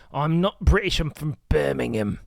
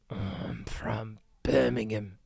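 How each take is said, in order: First: A light mock Birmingham accent. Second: Slow, whispered mock Birmingham accent. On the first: Streamer mocks a proud Birmingham local in a light Birmingham accent. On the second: Streamer repeats the Birmingham local's line, whispered in a Birmingham accent. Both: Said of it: "whatever the Birmingham accent is".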